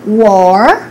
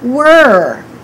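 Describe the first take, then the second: First: The vowel is a rounded O sound. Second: The vowel is unrounded, with no O sound. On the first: The speaker calls it wrong. "So don't say war" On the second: The speaker calls it right. "Just eliminate the O completely and say were"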